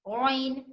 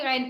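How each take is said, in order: First: The vowel is a two-part 'aw-i' sound. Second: The vowel is a single 'ai' sound. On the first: The speaker calls it right. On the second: The speaker calls it wrong.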